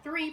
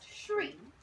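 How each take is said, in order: First: The word begins with a thr sound. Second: The word begins with an shr sound. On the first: "You might hear three"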